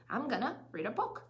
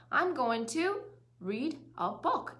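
First: I'm gonna read a book flowing in meaning units; linked, connected I'm gonna read a book; linked chunks. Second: I'm going to said in pieces before read a book; slow, unlinked I'm going to read a book; choppy word by word. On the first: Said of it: "연음으로 발음하시는 거죠". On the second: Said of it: "이렇게가 아니라". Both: Shown as a demonstration.

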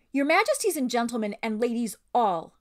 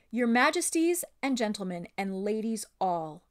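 First: High, loud gallant proclamation; Reepicheep. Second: Louder, moderately pitched sailor's address; sailor addressing the company. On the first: Reader voices a bold talking mouse addressing royalty, proud and high. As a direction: address the company grandly, pitched up and projected. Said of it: "read that like Reepicheep". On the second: Sailor Reinolf opens his speech to the company, respectful and projected. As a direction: speak up as a plain crewman to royalty. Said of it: "Let me change that". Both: A narrator's reading.

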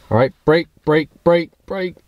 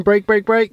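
First: Shouted brake commands, drilled fast; yelling commands. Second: Loud, higher repeated "brake" calls; yelling. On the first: Shown as a demonstration. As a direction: bark "brake" at the co-pilot. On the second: Retold or imitated. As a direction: call out "brake" like a backseat driver. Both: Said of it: "if I start yelling".

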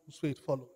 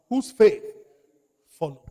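First: Said in the usual way. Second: Shouted high and loud; booming pulpit emphasis; emphatic call. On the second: Shown as a demonstration. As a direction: fling the phrase at the congregation. Preacher drills the key phrase.

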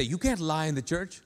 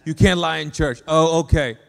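First: Understated imitation of a churchgoer's caution; quoted churchgoer rule. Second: Loud sarcastic echo of the rule; mocking agreement. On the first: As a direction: quote the church rule at your usual pitch, restrained. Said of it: "Like, people say". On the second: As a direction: throw it back loudly as if conceding. Mocks the church-only rule back.

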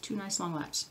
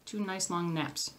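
First: Quick, softer tongue-twister attempt; said fast. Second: Slow, softer, word by word; slow and careful. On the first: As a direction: rattle it off quickly and quietly. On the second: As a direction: take it slowly to get each word right. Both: Shown as a demonstration. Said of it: "Try to say that fast".

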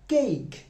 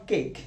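First: Cake as "keyk", higher; exaggerated diphthong in cake; correct pronunciation demo. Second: Cake as a short "kek"; clipped single-vowel cake; wrong pronunciation demo. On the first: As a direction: model cake with a stretched "ey-i" glide. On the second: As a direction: show cake with no diphthong. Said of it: "It's not cake". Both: Shown as a demonstration.

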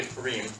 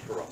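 First: Purim ending in a full "EEM"; correct pronunciation. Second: Purim with the last vowel reduced to "um"; common pronunciation. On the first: Teacher correcting the usual form, Purim as "poo-REEM". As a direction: pronounce Purim "poo-REEM", long last vowel. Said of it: "it's actually Purim". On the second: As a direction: stress the start of Purim, "PURR-um". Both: Shown as a demonstration.

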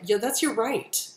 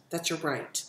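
First: Said in the usual way. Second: Softer, low-pitched echo of "That's your right."; soft emphatic repeat. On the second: Real, not acted. Repeats phrase softer second time.

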